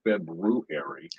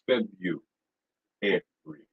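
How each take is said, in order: First: The first R sound is clearly pronounced. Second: The first R sound is dropped entirely. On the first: The speaker calls it wrong. "you think there's an R there, ... but it's not February" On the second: The speaker calls it right. "it's Febu every"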